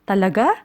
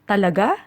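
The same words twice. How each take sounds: First: It sounds like a curious, checking question. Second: The same.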